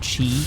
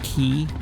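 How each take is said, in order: First: The word begins with a ch sound. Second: The word begins with a k sound. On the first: The speaker calls it wrong. "it's not pronounced Chi" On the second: The speaker calls it right. "it's Key"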